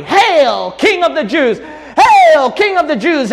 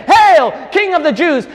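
First: Loud, high jeering cry of the crowd; sneering mock acclaim shouted high. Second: High, loud earnest acclaim; heartfelt hail to the king; sincere homage. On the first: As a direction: hurl it like a scornful mob. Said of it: "Everyone crying out in mockery". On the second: Shown as a demonstration. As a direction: proclaim him king in true devotion. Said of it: "should have said".

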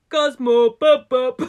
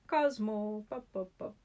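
First: Loud, high mock call for a cat; hammed-up neighbor calling his cat. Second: A hint of a bad Scottish accent calling a cat; lightly mock the Scottish neighbor calling his cat; bad Scottish impression. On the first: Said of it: "do a very bad impression". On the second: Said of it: "a very bad impression".

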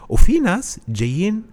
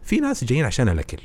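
First: وفي hit high and loud, then drawn out slowly; stress on وفي. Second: Said in the usual way. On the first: Shown as a demonstration. Listing audience types to the host, وفي jumps high and loud. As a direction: land hard on وفي and stretch the phrase.

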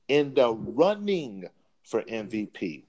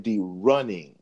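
First: Slow, weighted running in the running; running stressed to mock the claim. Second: Said in the usual way. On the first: Shown as a demonstration. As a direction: lean hard on running, slowly. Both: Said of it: "Let me emphasize running".

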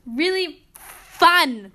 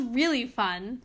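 First: Heavy sarcasm, FUN long drawn-out; sarcastic. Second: Understated sarcasm; dryly sarcastic, at an everyday pace. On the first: Driving home the test complaint, heavy drawn-out sarcasm. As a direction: stretch FUN loud and slow, higher. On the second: Complaining about the upper level test, dry sarcasm. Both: Real, not acted. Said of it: "That was sarcasm".

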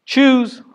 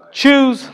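First: Very high, loud command; God's call to choose. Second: Very high, loud repeated command; echoing call to choose. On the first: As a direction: demand a decision from the listeners. Repeated command. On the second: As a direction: press the choice again. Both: Acted.

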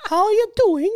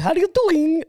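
First: Very high, badly faked British accent; bad English accent. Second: High-pitched, put-on Hispanic accent; mock Hispanic accent. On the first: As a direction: attempt a British accent and miss, pitched way up. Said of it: "not a very good English accent". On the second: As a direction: mimic a botched British accent that comes out Hispanic. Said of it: "more like a Hispanic accent".

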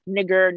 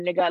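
First: Nigger with the final E R fully pronounced; hard R. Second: Nigga with an open A ending, no R; slang ending. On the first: Arguing with friends over slang, hard R. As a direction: end nigger on a hard R sound. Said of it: "the E R is hard". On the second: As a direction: drop the R at the end of nigga. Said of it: "it in slang". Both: Shown as a demonstration.

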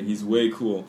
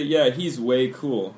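First: "way" given the main weight, falling at the end; stress on way. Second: Slow, careful model sentence; slow demo. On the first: Teacher repeating the phrase for students, stressing "way". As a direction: lean on "way" and let "He's way cool" fall. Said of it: "We say". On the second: Teacher modelling a phrase for students, slowly. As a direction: spell it out slowly for the learners. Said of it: "So we say". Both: Shown as a demonstration.

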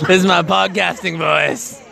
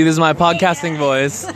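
First: Slow, smooth radio-host delivery; podcasting voice. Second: Said in the usual way. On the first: Shown as a demonstration. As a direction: lean into a mock podcast host voice.

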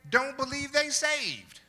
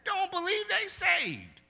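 First: Loud preaching. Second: "Don't believe they saved" pushed much higher and strained on "they"; higher repeat. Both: Acted. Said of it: "repeated higher".

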